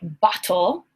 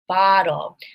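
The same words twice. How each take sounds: First: The middle T is a sharp, full T. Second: The middle T is a soft, quick tap. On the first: The speaker calls it wrong. "I do not say bottle" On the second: The speaker calls it right. "I say bottle"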